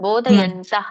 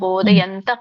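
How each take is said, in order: First: The final h sound is said fully. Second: The final h sound is only faintly heard. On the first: The speaker calls it wrong. "ಪೂರ್ಣ ರೀತಿಯಾಗಿ ವಿಸರ್ಗ ಹೇಳ್ಬೇಡಿ" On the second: The speaker calls it right. "ಅಲ್ಪವಾದ ವಿಸರ್ಗ ಬರ್ಬೇಕು"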